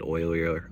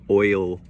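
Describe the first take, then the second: First: Said in the usual way. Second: "oilier" broken loudly into oil, ee, er; sounded-out word. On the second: Shown as a demonstration. Reviewer repeats a tricky word for viewers, sounded out. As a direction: punch out "oilier" syllable by syllable, with gaps.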